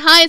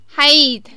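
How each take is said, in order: First: It is said in the speaker's ordinary accent. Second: It is said in an imitated Australian accent.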